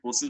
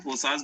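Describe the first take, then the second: First: "फोर्सेस" with a short front vowel in the last syllable; "फोर्सेस" like English "forces", no open "aa"; variant pronunciation. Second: "फोर्सास" with a long open "aa" in the last syllable; "फोर्सास" ending to rhyme with "pass" in an open "aa"; variant pronunciation. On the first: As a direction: say "फोर्सेस", ending in "-ses". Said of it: "कुछ लोग फोर्सेस बोलते हैं". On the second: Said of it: "कुछ लोग फोर्सास बोलते हैं". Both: Shown as a demonstration.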